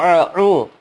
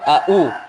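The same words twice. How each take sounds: First: Both consonants are throaty ain sounds. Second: Both consonants are glottal stops. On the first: "terdengar ain semua juga salah" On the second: "sama-sama hamzah, salah"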